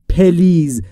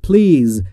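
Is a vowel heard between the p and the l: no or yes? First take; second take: yes; no. First: A short vowel is added between p and l. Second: The p and l are joined with no vowel. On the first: The speaker calls it wrong. "نگفتم پلیز" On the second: The speaker calls it right. "بین P و L صدایی وجود نداره"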